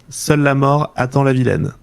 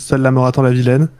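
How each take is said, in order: First: The title is said slowly and carefully. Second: The title is said quickly, at normal speed.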